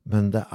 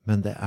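The two takes are said the same way.

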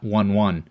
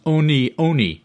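First: Each word sounds like the English word 'one'. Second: Each word sounds like 'oh-nee', two syllables. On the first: The speaker calls it wrong. "not 1-1" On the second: The speaker calls it right. "the proper pronunciation is Oni Oni"

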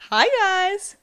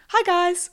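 First: It is said with a varied, lively tune. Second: It is said in a flat monotone.

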